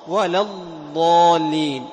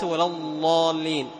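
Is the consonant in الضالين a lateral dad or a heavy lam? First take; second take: dad; heavy lam. First: The consonant is a long lateral dad sound. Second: The consonant sounds like a heavy, emphatic lam. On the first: The speaker calls it right. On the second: The speaker calls it wrong.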